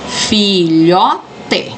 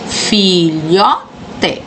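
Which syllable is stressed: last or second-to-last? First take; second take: second-to-last; second-to-last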